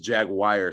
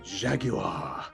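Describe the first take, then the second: First: It is pronounced the way many Americans say it. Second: It is pronounced the way Londoners say it. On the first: "half of America says" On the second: "Over here in London, they say"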